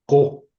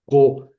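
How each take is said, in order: First: "Ko" with a sharp loud burst on the k; explosive ko. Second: "ko" with a hard burst on the k, louder; explosive ko. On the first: Teacher repeating the explosive "Ko" for the class. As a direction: snap "Ko" out. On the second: Teacher showing students the explosive "ko". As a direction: pop "ko" out explosively. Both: Shown as a demonstration. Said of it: "es más explosiva".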